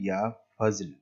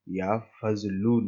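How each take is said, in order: First: The last word ends without a final vowel. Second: The last word ends with a final 'oo' vowel. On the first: The speaker calls it right. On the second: The speaker calls it wrong.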